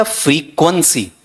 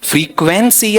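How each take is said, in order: First: "फ्रीक्वेंसी" with a reduced middle vowel; careful "फ्रीक्वेंसी", middle syllable weakened to kwun; frequency, second variant. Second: "फ्रीक्वेंसी" with an open KWEN in the middle; careful "फ्रीक्वेंसी", full E in the second syllable; frequency, first variant. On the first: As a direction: say "फ्रीक्वेंसी" as FREE-kwun-see. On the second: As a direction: say "फ्रीक्वेंसी" as free-KWEN-see. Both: Shown as a demonstration. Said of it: "इसका उच्चारण करना".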